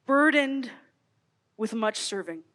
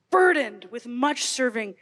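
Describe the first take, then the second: First: Said in the usual way. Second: "burdened" slow and heavy, falling at the end; slow, heavy reading. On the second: Shown as a demonstration. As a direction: lean on "burdened", then let "much serving" sink. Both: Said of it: "You hear that word burdened".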